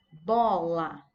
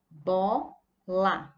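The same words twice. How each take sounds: First: Said in the usual way. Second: "bola" split into BO, pause, LA; syllable by syllable. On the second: Shown as a demonstration. Teacher showing pupils two syllables, "bola" broken apart. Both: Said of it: "Tem duas sílabas".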